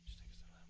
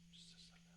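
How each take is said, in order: First: Whispered, calming himself. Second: Barely audible whisper, trailing away; fading whisper. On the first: Cooling himself down after ranting, whispered. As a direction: breathe it out in a whisper. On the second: Calming himself down further, barely whispered. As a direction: let it die to almost nothing. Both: Real, not acted. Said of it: "Let me just".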